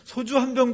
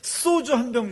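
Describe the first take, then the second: First: The first consonant is a plain, lax s. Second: The first consonant is a tense, hard ss. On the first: "이렇게 말하는 사람 별로 못 봤습니다" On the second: "이래야 직성이 풀리는 것 같아요"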